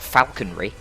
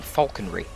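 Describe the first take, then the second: First: Falconry is said with an American pronunciation. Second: Falconry is said with a British pronunciation. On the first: The speaker calls it wrong. "Not falconry" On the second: The speaker calls it right. "you are engaging in falconry"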